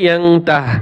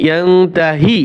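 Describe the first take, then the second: First: The word ends on the consonant h. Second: The word ends on a short i vowel. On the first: The reciter stops at this word. "ওয়াকফ করলে" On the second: The reciter continues without stopping. "আর যদি ওয়াকফ না করি"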